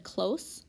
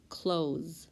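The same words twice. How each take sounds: First: "close" with an unvoiced S ending, as in nearby; close with S sound. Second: "close" with a voiced Z ending, as in shut; close with Z sound. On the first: Teacher showing the oddball reading to the class, "close" said with an S. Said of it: "it would be an oddball". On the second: Teacher reading spelling words to the class, "close" said with a Z. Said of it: "If you said close". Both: Shown as a demonstration.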